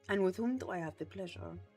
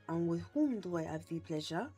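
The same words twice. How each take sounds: First: It is spoken with a Latin-sounding accent. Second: It is spoken with a French accent. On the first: The speaker calls it wrong. "that's a Latin accent" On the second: The speaker calls it right. "There it is"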